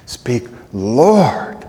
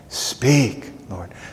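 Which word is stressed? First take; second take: Lord; Speak. First: The word lord is stressed. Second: The word speak is stressed. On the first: The one addressed is affirmed as Lord. "I reaffirm you as Lord" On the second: The request to speak is the point. "You can just emphasize each word as you speak that"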